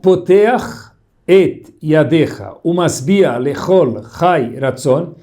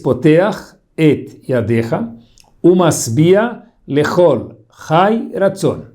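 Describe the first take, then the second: First: The words run together without pauses. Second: Each word is separated by a pause.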